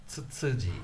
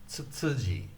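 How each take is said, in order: The two takes are said the same way.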